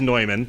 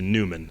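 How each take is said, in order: First: The name is pronounced the German way. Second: The name is pronounced the Americanized way. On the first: This is the original, proper form of the name. The speaker calls it right. "the proper pronunciation is Neumann" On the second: This is the locally adapted form of the name. The speaker calls it wrong. "Americanized it to Newman"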